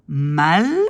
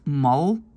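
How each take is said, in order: First: It is said with a French accent. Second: It is said with a Dutch accent. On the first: "on entend mal" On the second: "si je prononce ce mot euh, comme un néerlandophone"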